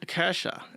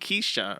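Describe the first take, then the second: First: The name begins with a 'kah' sound. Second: The name begins with a 'kay' sound. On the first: The speaker calls it right. "is how you say that name" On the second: The speaker calls it wrong. "they say Ke- Ke- Keisha or something like that. It's wrong"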